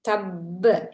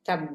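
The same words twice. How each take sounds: First: The final consonant is pressed and audibly bounced. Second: The final consonant is clipped without a bounce. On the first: The speaker calls it right. "நன்கு வெளித்தெரியும் படியாக அழுத்தி உச்சரிக்க வேண்டும்" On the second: The speaker calls it wrong. "என்று ஓதுவது பிழை"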